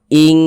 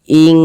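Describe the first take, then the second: Both takes have the same delivery.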